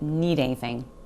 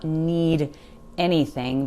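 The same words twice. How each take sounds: First: The D sound disappears and the words run together. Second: The D sound in 'need' is clearly pronounced. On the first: The speaker calls it right. "That D sound really disappears" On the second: The speaker calls it wrong. "Not need anything"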